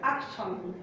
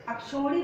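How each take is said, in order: First: "अक्षौहिणी" lower and softer, the right form; correct pronunciation. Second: "अक्षौहिणी" raised, the common mistaken form; wrong pronunciation. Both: Shown as a demonstration. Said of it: "अक्षौहिणी नहीं होता".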